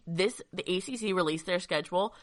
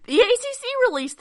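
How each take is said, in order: First: Said in the usual way. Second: Higher, louder excited announcement; burst of excitement. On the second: Real, not acted. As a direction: blurt the news out loud. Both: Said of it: "burst of excitement there".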